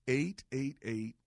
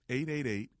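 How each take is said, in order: First: It is said more slowly. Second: It is said at normal speed.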